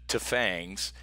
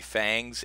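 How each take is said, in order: First: A T sound is said before the word. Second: The word is said without a T sound. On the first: "I pronounced the T in that one" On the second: "the T is silent"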